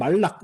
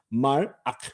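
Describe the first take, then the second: First: An l sound links the two syllables smoothly. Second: A clear break comes before the second syllable. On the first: The speaker calls it wrong. "그냥 말락, 말락 이렇게 발음하지 마세요" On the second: The speaker calls it right. "단모음 다음에 쉐바는 묵음 쉐바"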